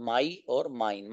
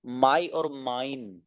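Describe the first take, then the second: First: My and mine drawn out, softer; slow clear model. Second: My and mine drawn out slowly; slow clear model. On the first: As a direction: repeat the two words slowly and softly. (my और mine दोबारा धीरे और धीमी आवाज़ में) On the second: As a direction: present the two words slowly. (my और mine धीरे-धीरे साफ़ बोलें) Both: Shown as a demonstration. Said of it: "teacher models words slowly".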